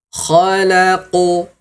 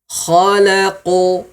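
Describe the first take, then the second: Both takes have the same delivery.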